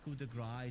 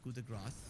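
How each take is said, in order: First: The final s of grace is silent. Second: The final s of grace is pronounced. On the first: The speaker calls it wrong. "So it's not" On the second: The speaker calls it right. "Like there is an S there"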